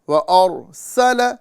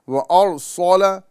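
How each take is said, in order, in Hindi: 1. s की आवाज़ हल्की और पतली है। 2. s की आवाज़ भारी और मोटी है। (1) "लाम और सीन दोनों बारीक होगा" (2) "सोलह बोलेंगे तो ये सौद अदा हो रहा है"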